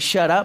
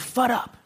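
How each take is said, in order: First: The first word starts with a SH sound. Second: The first word starts with an F sound. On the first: "instead of saying shut up" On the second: "I would say you fut up"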